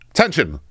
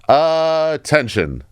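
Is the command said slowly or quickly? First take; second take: quickly; slowly. First: It is said quickly, syllables run together. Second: It is said slowly, syllables spaced apart.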